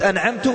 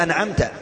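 First: أنعمت ending in u, anʕamtu, the mistake; wrong damma ending. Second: أنعمت ending in a, anʕamta; correct fatha ending. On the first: Preacher showing the wrong vowel of أنعمت, final u. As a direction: end أنعمت on a short u. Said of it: "جعلت أنك نفسك أنت الذي تنعم". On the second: Preacher reciting the correct vowel of أنعمت, final a. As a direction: finish أنعمت on a short a. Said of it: "لو غيرتها حركة واحدة هي". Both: Shown as a demonstration.

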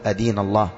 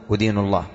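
First: أدين with "a" first, "adīnu"; correct fatha form. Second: أدين with "u" first, "udīnu"; wrong damma form. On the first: Teacher summing up for students, أدين as "adīnu". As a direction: say أدين opening on short "a". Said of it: "بالفتح، تقول". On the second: Teacher correcting students' habit, أدين as "udīnu". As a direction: say أدين opening on short "u". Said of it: "لا تقول". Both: Shown as a demonstration.

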